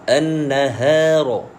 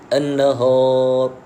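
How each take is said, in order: First: The vowel is said thin and light. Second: The vowel is said thick and heavy. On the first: The speaker calls it right. "Yang nipisnya ha itu nipis" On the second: The speaker calls it wrong. "Tetapi yang salah kita baca"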